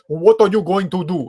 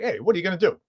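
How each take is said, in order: First: A failed New York accent, sounding Russian-like. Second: A genuine New York accent with attitude.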